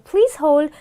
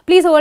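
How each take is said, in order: First: It is said softly with varied intonation. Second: It is said flatly, like a robot. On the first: The speaker calls it right. "Be soft, be gentle, be polite" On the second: The speaker calls it wrong. "don't sound like a robot"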